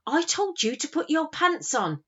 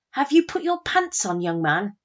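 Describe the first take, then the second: First: High-pitched mock-stern telling-off; trying not to crack. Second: Put-on loud, high call to a child; stern parental shout. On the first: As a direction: scold your son while holding back a laugh. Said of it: "desperately trying not to crack". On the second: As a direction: holler at your son like a cross mum. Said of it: "I lost my rag and I shouted".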